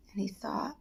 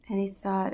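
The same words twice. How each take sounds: First: Hushed. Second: Said in the usual way. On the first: A narrator's reading. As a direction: let it sink into silence. Pondering told in hush.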